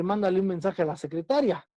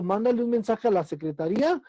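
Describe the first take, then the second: First: Secretaria with the stress on the syllable ta. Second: Secretaría with the stress on the í. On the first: Teacher contrasting two similar words for students, secretaria stressed on ta. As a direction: hit TA in secretaria, gliding through ria. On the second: Teacher contrasting two similar words for students, secretaría stressed on í. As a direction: lean on the í of secretaría, lifting it. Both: Shown as a demonstration. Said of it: "la palabra secretaría y secretaria".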